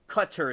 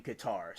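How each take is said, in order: First: Qatar said CUT-er, stress on the first syllable; corrected pronunciation. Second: Qatar said kuh-TAR, stress on the second syllable; common pronunciation. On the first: Streamer correcting herself for chat, Qatar said as CUT-er. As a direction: say Qatar like "cutter". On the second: Streamer telling chat where the bases were, Qatar said kuh-TAR. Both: Shown as a demonstration. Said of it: "it's really pronounced".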